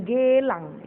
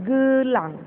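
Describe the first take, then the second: First: "gelang" with a full open e, slowly; the wrong way, gelang with a clear e sound; slow contrast take of gelang with a hard e; hard e wrongly. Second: "gelang" with the e weakened to a schwa, raised and louder; weak e. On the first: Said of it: "Bukan gelang ya". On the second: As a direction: say gelang with a short uh in the first syllable. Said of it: "E-nya dilemahkan". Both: Shown as a demonstration.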